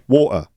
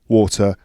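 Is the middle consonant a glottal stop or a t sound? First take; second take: glottal stop; t sound. First: The middle consonant is a glottal stop. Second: The middle consonant is a clear t sound.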